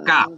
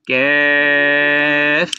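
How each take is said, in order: First: The vowel is a wide, open 'ah' sound. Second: The vowel is a flatter, middle 'a' sound. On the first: The speaker calls it wrong. "কা এরকম হবে না" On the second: The speaker calls it right. "চ্যাপটা হবে"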